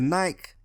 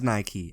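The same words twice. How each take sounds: First: It is one syllable, rhyming with bike. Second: It is two syllables, ending in an ee sound. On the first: This is how everyone in the UK says it. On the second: This is the brand's official pronunciation.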